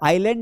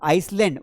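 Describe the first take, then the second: First: No s sound is pronounced before the l. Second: An s sound is pronounced before the l. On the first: The speaker calls it right. "आइलैंड है" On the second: The speaker calls it wrong. "हम बोलते हैं ना आइसलैंड, वो आइसलैंड नहीं है बेटा"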